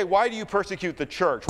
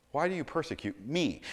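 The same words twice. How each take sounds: First: "church" as the contrasted word, pitched high; raised question pointed at "church"; higher voice, landing on "church"; stress on CHURCH. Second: "me" set apart at the end; soft question pointed at "me"; stress on ME. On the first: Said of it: "he doesn't say". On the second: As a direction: quietly land the question on "me". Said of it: "You notice he doesn't say". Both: Retold or imitated.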